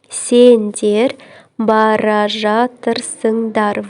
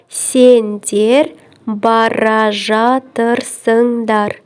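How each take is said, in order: Both takes have the same delivery.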